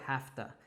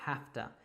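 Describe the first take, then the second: Both takes have the same delivery.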